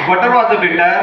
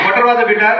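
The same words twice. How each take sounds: First: It is said a little faster. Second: It is said faster still.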